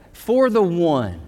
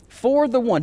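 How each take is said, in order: First: Said slowly and heavily; slow, weighty. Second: Repeated higher, with a lift. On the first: Pastor slowly stresses his theme to the congregation, weighty. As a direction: let each word land, slowly. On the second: Pastor repeats his theme, higher and brighter. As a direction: lift it higher the second time. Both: Shown as a demonstration.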